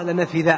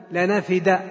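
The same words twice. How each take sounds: First: لنفذ ending on a dhal; imitating a misreading. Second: لنفد ending on a plain dal; correct dal. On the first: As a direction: quote the wrong لنفذ with dhal. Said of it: "سمعت بعض الناس يقرأها". (لنفذ بالذال خطأ) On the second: Shown as a demonstration. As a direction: say لنفد with dal, not dhal. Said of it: "بالدال المهملة". (لنفد بالدال المهملة)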